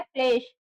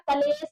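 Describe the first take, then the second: First: क्लेश said with the kl cluster joined, klesh; correct pronunciation. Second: कलेश said with an extra vowel, as ka-lesh; wrong pronunciation. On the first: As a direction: close the cluster: क्लेश in two syllables. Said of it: "शब्द क्या होता है". (क्लेश को सही ढंग से, क्ले-श बोलिए) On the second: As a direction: split the cluster: कलेश in three syllables. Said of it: "कलेश ना होकर के". (कलेश को गलत ढंग से, क-लेश बोलिए) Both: Shown as a demonstration.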